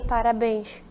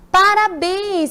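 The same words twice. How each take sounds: First: It sounds flat and insincere. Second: It sounds warm and sincere.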